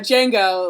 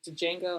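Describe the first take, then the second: First: The D at the start is silent. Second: The D at the start is pronounced. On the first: The speaker calls it right. "the D is silent" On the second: The speaker calls it wrong. "I always say it wrong"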